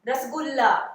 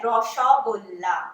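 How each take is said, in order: First: The vowels are said as a plain 'a' sound. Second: The vowels are rounded toward an 'o' sound. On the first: This is the Hindi way of saying it. "जैसे आप लोग बोलते हैं ना" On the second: This is the Bengali way of saying it. "वो क्या होता है बंगाली में?"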